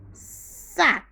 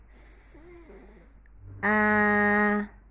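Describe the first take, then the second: First: The sounds are said quickly as one word. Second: The sounds are said slowly and apart. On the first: "Now faster, as if we're driving quickly" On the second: "we do it three times"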